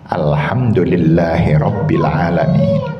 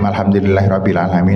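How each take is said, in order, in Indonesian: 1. Dibaca dengan tempo sedang dan merata. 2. Dibaca sangat cepat, kata-katanya tersambung. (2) "Terlalu cepat"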